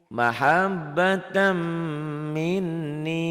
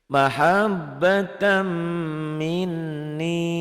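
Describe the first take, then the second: Both takes have the same delivery.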